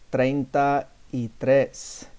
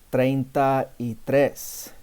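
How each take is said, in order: No difference in how they are said.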